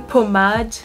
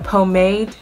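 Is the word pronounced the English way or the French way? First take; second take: French; English. First: The word is pronounced the French way. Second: The word is pronounced the English way. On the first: "I say pomade because I'm French" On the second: "I don't know if in English you say pomade"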